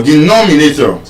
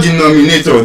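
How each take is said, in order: First: Denominator stressed on the second syllable, NOM; correct stress. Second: Denominator with the stress late, on NA; denomi-NA-tor, the mistaken way; wrong stress. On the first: Teacher corrects by the rule, second-syllable stress. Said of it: "stressed on the fourth to the last syllable". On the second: Teacher shows what it is not, wrong stress. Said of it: "It's not denominator". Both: Shown as a demonstration.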